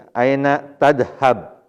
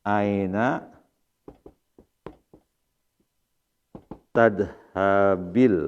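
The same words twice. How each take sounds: First: "tadhab" ending on a dead consonant, no vowel; student reads "tadhab" flatly stopping on the b; wrong ending. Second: "tadhabil" with a clear i vowel added after the b, said very slowly; correct reading. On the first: Real, not acted. Student's reading before the teacher corrects it, "tadhab" ending abruptly. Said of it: "Kenapa kasroh?". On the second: Shown as a demonstration. Teacher models the right reading to the class, slow and careful. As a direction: draw out "Aina tadhabil", linking b to l with a short i. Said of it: "Nah, gitu ya bacanya".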